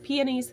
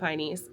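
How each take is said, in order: First: The word is said with three syllables. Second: The word is said with two syllables. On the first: It is the standard name for the flower. The speaker calls it right. "I know that's how it's supposed to be said" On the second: It is the family's habitual name for the flower. The speaker calls it wrong. "I don't think that's the correct pronunciation"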